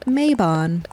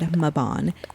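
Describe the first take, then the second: First: The first syllable sounds like 'may'. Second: The first syllable does not sound like 'may'. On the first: This is the usual American way to say it. "here in America, you would say it Maybon. Which makes me feel like something should be happening in May" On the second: This is the usual British way to say it. "over the pond, it's much more likely to be said Mabon"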